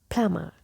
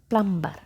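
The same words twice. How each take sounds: First: The B is silent. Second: The B is clearly pronounced. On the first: The speaker calls it right. "But this letter is silent. So the correct pronunciation of this word is plumber" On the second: The speaker calls it wrong. "I have seen people pronounce it like plumber, plumber, and they emphasize this letter"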